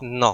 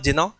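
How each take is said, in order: First: The word starts with an n sound. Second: The word starts with a hard g sound. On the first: The speaker calls it right. "It is नौ ... ये होता है silent" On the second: The speaker calls it wrong. "It is not जिनौ"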